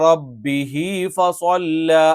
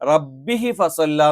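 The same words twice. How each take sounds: First: The vowel after h is drawn out long. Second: The vowel after h is kept short. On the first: The speaker calls it right. "ഇവിടെ ഒരു യാ പോലെ ഒരു നീട്ടം ഇട്ട് കൊടുത്തിട്ടുണ്ട്" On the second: The speaker calls it wrong. "എന്നല്ല"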